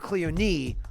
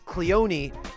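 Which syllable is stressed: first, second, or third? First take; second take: third; second. First: The stress is on the third syllable. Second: The stress is on the second syllable. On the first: "or Cleone on the third syllable, which I highly doubt" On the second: "Cleone on the second syllable"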